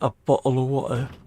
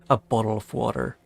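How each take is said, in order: First: The middle consonants sound like a crisp T. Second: The middle consonants sound like a soft D. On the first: "Instead of saying" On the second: "I just make a D sound instead"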